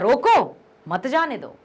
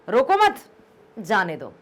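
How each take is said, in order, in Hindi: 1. पहले शब्द के बाद विराम है। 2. दूसरे शब्द के बाद विराम है। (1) "रोको के बाद यदि कॉमा लगा है" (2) "यदि रोको मत के बाद लगा है"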